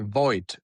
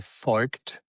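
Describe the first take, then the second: First: The name is said with an English pronunciation. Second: The name is said with a southern German pronunciation. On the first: "in English, you say" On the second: "In southern part, you would say"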